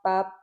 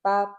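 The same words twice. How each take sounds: No difference in how they are said.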